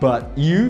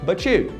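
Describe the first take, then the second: First: The words are said separately with a clear T. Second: The T and Y merge into a ch sound. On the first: "Só quando você juntou o T do but com o Y do you" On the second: "but you virou but you"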